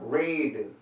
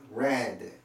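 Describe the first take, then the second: First: The vowel is long, like 'reed'. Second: The vowel is short, like 'red'. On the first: It is the present form. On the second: It is the past participle form.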